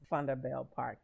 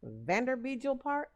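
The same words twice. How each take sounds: First: The name is said with local South African pronunciation. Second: The name is read with American English pronunciation. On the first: The speaker calls it right. "but it's actually pronounced" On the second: The speaker calls it wrong. "if I were to read that word here in America, I would pronounce it"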